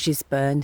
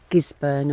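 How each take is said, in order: First: It begins with a soft G sound. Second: It begins with a hard G sound. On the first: "a soft G" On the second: "a hard G"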